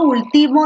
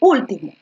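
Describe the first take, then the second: First: The stress is on the second syllable. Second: The stress is on the first syllable. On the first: It is a verb meaning to finalize. "Ahí último no lleva tilde" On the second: It means the last one. "y ahí sí lleva tilde"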